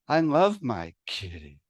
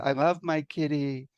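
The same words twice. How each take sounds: First: It is spoken on the speaker's usual home note. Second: It is spoken a musical fifth higher.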